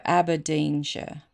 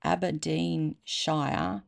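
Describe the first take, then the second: First: "Aberdeenshire" with a short "shuh" ending; "Aberdeenshire" the Scottish way, ending unstressed; local pronunciation. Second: "Aberdeenshire" drawn out slowly, ending like "shire"; stretched-out "Aberdeenshire", last syllable rhyming with "fire"; spelling pronunciation. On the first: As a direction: say "Aberdeenshire" with the last syllable reduced to "sher". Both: Shown as a demonstration. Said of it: "that's probably how it's pronounced".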